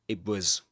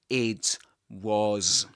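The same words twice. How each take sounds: First: The t blends into w and is not released. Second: The t at the end of 'it' is fully released. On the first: The speaker calls it right. "but it was" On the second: The speaker calls it wrong. "you don't say it was"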